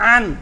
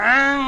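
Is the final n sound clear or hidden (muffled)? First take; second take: clear; hidden. First: The final n is pronounced fully and clearly. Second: The final n is muffled and partly hidden. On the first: "গোপন করা হলো না নুনের উচ্চারণটা স্পষ্ট করলাম" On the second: "নুনটা কি স্পষ্ট বোঝা গেল মানে কিছুটা অস্পষ্ট"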